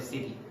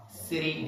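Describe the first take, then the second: First: "city" with a true T sound; unflapped T in "city"; hard T. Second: "City" said like "siddy"; American flapped T in "City"; T as a soft D. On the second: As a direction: tap the T in "City" into a D. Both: Shown as a demonstration. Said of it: "instead of city".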